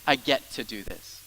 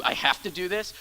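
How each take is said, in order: First: "I get to do this" slower and settled, falling at the end; get-to gladness. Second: "I have to do this" said as a reluctant chore, rising at the end; have-to grudging. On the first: Pastor showing a get-to attitude, glad settled tone. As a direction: say it like a privilege. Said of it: "or it's a". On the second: Pastor showing a have-to attitude, grudging tone. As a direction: sound like it's a burden. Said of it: "a have to". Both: Shown as a demonstration.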